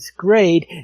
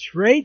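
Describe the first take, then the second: First: The name begins with an 'sk' sound. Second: The name begins with an 'sh' sound. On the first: The name suggests a skirmish raid. "it sounds like a skirmish raid" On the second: The name plays on the word charade. "is it a play on charade?"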